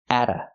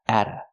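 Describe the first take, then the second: The two takes are said the same way.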